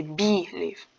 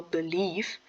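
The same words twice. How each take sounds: First: "believe" stressed on BE, as BEE-lieve; wrong first-syllable stress. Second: "believe" with the weight on LIEVE; stress on second syllable. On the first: Student shows viewers the wrong stress, "believe" as BEE-lieve. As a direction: hit the first syllable of "believe" hard, let LIEVE fall. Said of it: "you wouldn't say". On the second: Student shows viewers where the stress falls, "believe" stressed on LIEVE. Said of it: "the stress is on the leave". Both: Shown as a demonstration.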